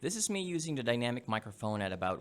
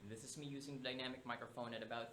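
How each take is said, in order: First: The voice is recorded about one foot away. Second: The voice is recorded about three feet away. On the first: "at about one feet away" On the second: "at about three feet away"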